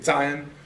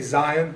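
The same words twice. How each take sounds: First: The word starts with a ts sound. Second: The word starts with a z sound. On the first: This is the Hebrew pronunciation. "they would say ... basically our T S or T Z sound" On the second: This is the usual English pronunciation. "where we say"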